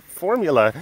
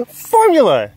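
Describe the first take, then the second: First: Exclaiming. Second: Formula! shouted much higher and louder; shouted exclamation. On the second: To the camera about the animals, a gleeful shout. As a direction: yell the word Formula! with glee. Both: Real, not acted. Echoing the word excitedly.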